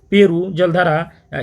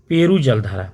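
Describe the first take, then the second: First: Peru जलधारा drawn out slowly, each syllable spaced; slow drill answer. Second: Said in the usual way. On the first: Shown as a demonstration. Teacher drilling the answer for students, slow and deliberate. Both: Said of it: "क्या रख दिया गया?".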